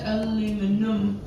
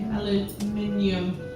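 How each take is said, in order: First: It is said with four syllables, American style. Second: It is said with five syllables, British style. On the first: "I'm pretty sure you just spell it U M" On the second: "we say aluminium"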